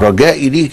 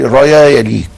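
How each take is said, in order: First: The first word keeps its j-type consonant. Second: The j-type consonant becomes a y sound.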